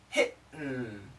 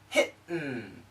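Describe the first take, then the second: First: The T is cut off by a glottal stop. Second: The T is cut off by a glottal stop.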